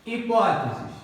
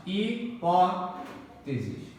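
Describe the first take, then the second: First: Said in the usual way. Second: Hipóteses stretched out very slowly, weight on -pó-; very slow stressed demo. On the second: Shown as a demonstration. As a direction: drag out Hipóteses, hitting -pó-. (Hipóteses muito lento, com ênfase em pó) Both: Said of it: "Proparoxítona".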